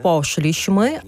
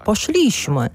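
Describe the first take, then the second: First: Poszliśmy stressed on po, third syllable from the end; stress on the first syllable. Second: Poszliśmy with the stress moved to szli; stress on the middle syllable. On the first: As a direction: say "poszliśmy" as POszliśmy, leaning on the start. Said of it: "Наприклад". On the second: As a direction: say "poszliśmy" as poSZLIśmy, the common slip. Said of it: "а не". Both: Shown as a demonstration.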